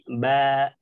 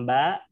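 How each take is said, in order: First: The ba ends cleanly with no added sound. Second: The ba is cut off with a glottal catch. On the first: The speaker calls it right. "tapi ba" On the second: The speaker calls it wrong. "Tidak ditahan dengan huruf hamzah ... Bukan ba"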